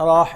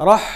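First: "রহ" with a drawn-out vowel; mispronounced rah. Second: "রহ" with a short vowel, straight into h; quick joined rah. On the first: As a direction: say "রহ" slowly as "ro-oh", late into the h. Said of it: "এটা ভুল". ("রহ"-এর র টেনে, ভুল করে দেখানো) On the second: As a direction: jump quickly from r into h in "রহ". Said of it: "রাটা হার মধ্যে খুব তাড়াতাড়ি আসবে". ("রহ"-এ র থেকে দ্রুত হা-তে যাওয়া) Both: Shown as a demonstration.

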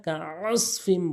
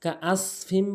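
First: Slow "কাআসফিম" with pharyngeal ain; ain from throat. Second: "কাআসফিম" with plain glottal hamza; hamza for ain. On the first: Teacher correcting learners, "কাআসফিম" with true throat ain. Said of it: "কাআসফিম বলতে হবে". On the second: Teacher warning learners, "কাআসফিম" with hamza instead of ain. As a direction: say "কাআসফিম" without throat ain. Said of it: "কাআসফিম বলা যাবে না". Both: Shown as a demonstration.

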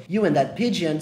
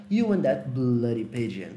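First: Said in the usual way. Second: Bloody said with slow, lower emphasis; stress on bloody. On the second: Shown as a demonstration. Teacher adding the insult, stress on bloody. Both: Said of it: "Só que ele elogiou o pombo".

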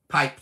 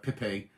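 First: "Pipe" as one plain syllable; everyday pronunciation. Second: "Pippi" in two syllables, posh style; posh pronunciation. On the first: Giving the name as you and me would, plainly. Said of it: "Pipe to you and me". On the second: Teasing a viewer for being posh, affected pronunciation. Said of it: "she's being posh in East Yorkshire". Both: Shown as a demonstration.

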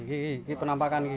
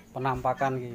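First: Choppy stuttering glitch voice; glitching robot. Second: Said in the usual way. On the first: Pretend. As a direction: break the words up like a lagging robot, fast. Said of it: "Suaranya kok patah-patah".

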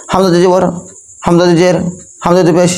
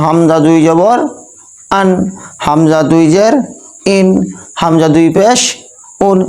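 First: Hamza দুই জবর, জের, পেশ each rattled off quickly; wrongly hurried reading. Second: Hamza দুই জবর spelt out unhurried, rising, then short আন; clear pronunciation. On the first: Teacher demonstrating the wrong way, Hamza দুই phrases hurried. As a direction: rush each Hamza দুই phrase, words squashed together. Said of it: "এরকম আসবে। তাহলে এভাবে পড়া যাবে না". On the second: Teacher showing students the right way, আন, ইন, উন short and clear. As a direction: say each Hamza দুই phrase distinctly, then a quick আন, ইন, উন. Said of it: "স্পষ্ট ভাবে চলে এলো".

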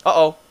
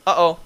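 Both takes have the same delivery.

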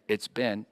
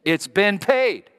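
First: Said in the usual way. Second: Slow, high, loud "paid"; "it's been paid" drawn out and punched; stress on paid. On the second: Shown as a demonstration. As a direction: lean hard on "paid". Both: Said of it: "get it, Ben?".

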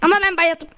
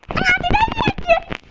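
First: Said in the usual way. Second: Very high slow squeaky voice. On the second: Pretend. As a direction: squeak it out comically. Squeaky funny voice.

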